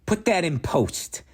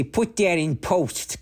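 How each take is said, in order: First: Whispered aside. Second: High, knowing film-guy voice; movie director voice. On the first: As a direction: breathe it as a whisper. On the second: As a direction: play a pompous movie guy. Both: Pretend. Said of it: "I work in the movies and I say".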